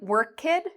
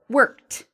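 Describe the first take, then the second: First: The word is said in two syllables. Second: The word is said in one syllable. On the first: The speaker calls it wrong. "instead of saying work kid" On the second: The speaker calls it right. "so it's one syllable, one clear line"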